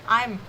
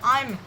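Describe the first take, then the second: The two takes are said the same way.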